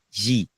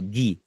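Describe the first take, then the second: First: The g is a soft, hushing sound. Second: The g is a hard, throaty sound. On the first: The speaker calls it wrong. "não é Gi" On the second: The speaker calls it right. "é, o Gui, porque é gu- gurutal"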